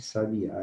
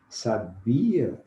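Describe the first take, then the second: First: The stress falls on the last syllable. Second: The stress falls on the middle syllable. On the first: It is a noun naming a bird. "Sabiá é um substantivo" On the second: It is a verb meaning knew. "Sabia é um verbo"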